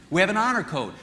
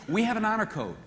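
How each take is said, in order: First: Honor punched and falling; stress on honor. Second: We hit hard, high and falling; stress on we. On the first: Speaker explaining male honor code, stress on honor. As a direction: lean on the word honor, not we. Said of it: "Just as you women do". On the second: Speaker contrasting men with women, stress on We. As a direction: set We against you women, stressed. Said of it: "you have a love code". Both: Shown as a demonstration.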